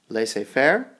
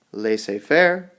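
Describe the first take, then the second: No difference in how they are said.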